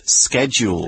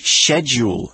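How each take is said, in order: First: The word is pronounced a non-British way. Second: The word is pronounced the British way. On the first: "instead of schedule" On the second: "if you hear people from the UK speak, we will often say schedule"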